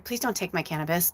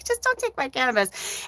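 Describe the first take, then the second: First: Quiet plea. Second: Mock pleading. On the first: Retold or imitated. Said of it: "I said to Spirit". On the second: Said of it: "That's all I'm saying".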